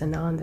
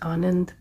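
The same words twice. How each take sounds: First: The name is said with an anglicized pronunciation. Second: The name is said with an Indian pronunciation. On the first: "he identified himself as Anand" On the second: "Indians would pronounce it as Anand"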